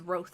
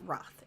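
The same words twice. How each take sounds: First: The vowel in the name is long. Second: The vowel in the name is short. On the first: The speaker calls it right. "E makes, you know, the other vowel in the word long" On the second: The speaker calls it wrong. "and not"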